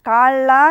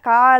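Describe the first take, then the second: First: The middle consonant is doubled and pressed. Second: The middle consonant is short and light. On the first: The speaker calls it right. "లా అని ఒత్తి పలుకుతున్నాం" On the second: The speaker calls it wrong. "కాళ అని పలుకుతున్నామా"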